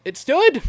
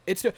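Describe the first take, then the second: First: Stood said up high and loud in disbelief; amazed. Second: Said in the usual way. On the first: Real, not acted.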